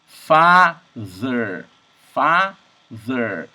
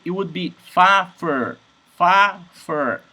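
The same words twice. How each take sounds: First: "father" with a voiced th in the middle; slow "father", tongue between teeth on th; correct th. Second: "fa-fer" with an f instead of th; mock mistake "fa-fer"; "fa-fer", lips biting for f; wrong F sound. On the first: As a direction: model "father" with clear ð. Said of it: "And this word is". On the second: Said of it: "if it was an F". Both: Shown as a demonstration.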